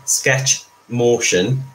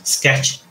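First: Said in the usual way. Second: Slurred through loose teeth; speaking around loose dentures. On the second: Real, not acted. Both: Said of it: "put my teeth back in again".

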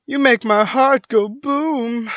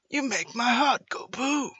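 First: Loud, slow, higher attempt at Australian; slightly Australian, louder and drawn out; Australian accent attempt. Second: Higher-pitched shaky attempt at Australian; badly faked Australian accent, pitched up. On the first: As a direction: try a rough Australian accent. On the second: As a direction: have a failed go at an Australian voice. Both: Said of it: "I can't do an Australian voice".

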